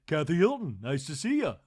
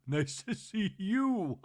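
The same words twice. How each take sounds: First: Louder quick introduction; brisk self-introduction; Kathy's greeting. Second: Slow, higher sing-song nice to see you; drawn-out breathy celebrity greeting; mock Kathy greeting. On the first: Retold or imitated. Kathy introducing herself at a party, brisk. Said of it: "And Kathy said". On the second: Host mimicking Kathy's slow greeting.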